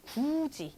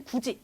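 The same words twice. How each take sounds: First: "굳이" drawn out as guu-ji; linked pronunciation. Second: "굳이" as written, before linking; unlinked original form. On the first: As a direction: run "굳이" together, stretching the first syllable. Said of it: "굳이 이런 식으로". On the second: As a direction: say "굳이" short, syllable by syllable. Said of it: "원래는 굳이 요거지만". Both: Shown as a demonstration.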